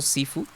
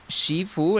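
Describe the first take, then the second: First: The word begins with an 's' sound. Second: The word begins with a 'sh' sound. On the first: This is how other people say it. The speaker calls it wrong. "he escuchado a gente pronunciándole más que todo Sifu" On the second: This is the speaker's own habitual pronunciation. The speaker calls it right. "Yo siempre lo he pr- pronunciado así"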